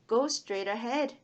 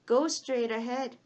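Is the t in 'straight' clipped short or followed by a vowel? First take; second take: clipped; clipped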